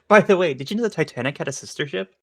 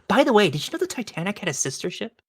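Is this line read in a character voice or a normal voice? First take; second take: normal; character. First: It is read in a plain, natural voice. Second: It is read in a put-on character voice.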